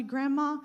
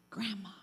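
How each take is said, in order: First: "Grandma," spoken out clearly, not whispered; clear-voiced granddaughter. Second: Soft, hushed "Grandma," barely above breath; whispered Grandma. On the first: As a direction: call "Grandma," plainly like a real grandchild. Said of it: "They are talking as clear as day". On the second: Retold or imitated. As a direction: whisper "Grandma," like a scared caller at night. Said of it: "they whisper".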